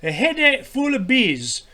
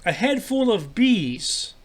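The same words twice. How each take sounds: First: Higher, drawn-out Scottish attempt gone astray; retry the Scottish accent, badly and slowly; botched Scottish accent. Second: Said in the usual way. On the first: Host retrying the quote after teasing, botched Scottish accent. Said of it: "That sounds more like another accent".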